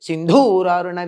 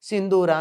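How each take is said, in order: First: The middle consonant is said with strong aspiration. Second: The middle consonant is said without aspiration. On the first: It means red like an elephant. The speaker calls it wrong. "ఒత్తు పలుకుతారు. అది తప్పే" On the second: It means red like vermilion. The speaker calls it right. "సింధూర అని ఉండాలక్కడ"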